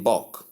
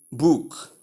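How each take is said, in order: First: "book" with a short U; correct short vowel. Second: "book" with a long oo as in boot; wrong long vowel. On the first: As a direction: say "book" short, unlike boot. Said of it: "short U sound". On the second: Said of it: "that is long U sound". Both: Shown as a demonstration.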